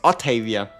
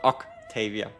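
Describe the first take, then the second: First: The first syllable does not sound like 'ock'. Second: The first syllable sounds like 'ock'. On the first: The speaker calls it right. "I think it's Octavia" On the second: The speaker calls it wrong. "not Octavia, unless she's like, uh, you know, friends with Doc Ock"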